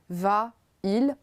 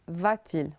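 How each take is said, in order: First: The two vowels meet with no sound between. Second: A t sound separates the two vowels.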